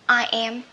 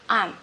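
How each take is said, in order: First: It is said as two separate full words. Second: It is said as one contracted syllable.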